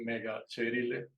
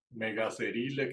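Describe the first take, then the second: First: "Megacerile" with c as ch; correct Latin pronunciation. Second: "Megacerile" with c as an s; Spanish-style pronunciation. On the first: Teacher giving the proper name, correct pronunciation. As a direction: say "Megacerile" as me-ga-che-RI-le. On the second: Teacher reading it as in Spanish, Spanish-style pronunciation. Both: Shown as a demonstration. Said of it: "que pronunciaría uno en español".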